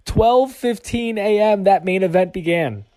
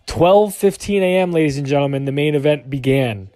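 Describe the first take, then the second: First: Twelve fifteen A M said high and slow, each word hit; slow emphatic repeat. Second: Said in the usual way. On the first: Shown as a demonstration. Telling viewers the late start time, slow and stressed. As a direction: drag out Twelve fifteen to hammer the hour home. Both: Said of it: "Let me say that again".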